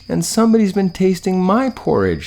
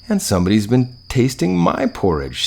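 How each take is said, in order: First: It is a high, squealing little voice. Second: It is a medium, middle-pitched voice.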